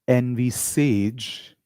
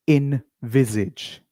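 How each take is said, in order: First: The middle consonant is a hissing S sound. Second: The middle consonant is a buzzing Z sound. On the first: The speaker calls it wrong. "A lot of people will say envisage" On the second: The speaker calls it right. "the correct pronunciation of this word is envisage. You should say viz"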